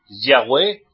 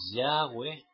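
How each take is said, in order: First: The stress is on the last syllable. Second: The stress is on the first syllable. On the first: The speaker calls it wrong. "acento en la E" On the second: The speaker calls it right. "en vez de decir Yahweh"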